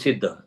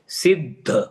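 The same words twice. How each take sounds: First: The first syllable is said lightly, without force. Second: The first syllable is pressed on with force. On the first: The speaker calls it wrong. "कुछ लोग बोलते हैं सिद्ध, नहीं सिद्ध नहीं" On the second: The speaker calls it right. "जोड़ाक्षर के पहले अक्षर पर जोर लगाकर ही बोलना चाहिए"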